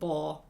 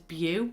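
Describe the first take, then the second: First: The name ends in an 'oh' sound. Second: The name ends in an 'oo' sound. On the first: The speaker calls it right. "Yeah, it's Bo" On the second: The speaker calls it wrong. "I've always pronounced it as Bew"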